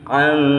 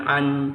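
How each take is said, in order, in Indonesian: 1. Bunyi n disamarkan dan dikaburkan menjadi sengau. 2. Bunyi n diucapkan penuh dan jelas. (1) "tetapi an" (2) "bukan an"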